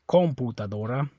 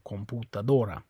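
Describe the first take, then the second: First: The stress is on the first syllable com. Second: The stress is on the fourth syllable do. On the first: The speaker calls it wrong. "it's not this O, or you'd say" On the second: The speaker calls it right. "it's on the O"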